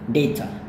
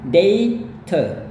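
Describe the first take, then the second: First: It is said quickly and casually. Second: It is said slowly and carefully. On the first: "kalau ngomong biasanya mereka cepat-cepat, itu berarti" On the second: "kayak gitu seharusnya"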